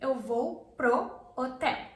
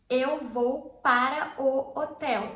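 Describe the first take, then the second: First: The words 'para o' merge into one syllable. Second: The words 'para o' are said in full. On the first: "para plus o pro" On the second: "Instead of you saying this"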